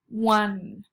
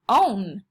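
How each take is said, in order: First: It begins with a W sound. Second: It begins with a long O vowel. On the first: The speaker calls it right. "this O makes a W sound" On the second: The speaker calls it wrong. "this E right here should tell this O to say its name"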